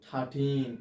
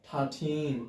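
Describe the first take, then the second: The two takes are said the same way.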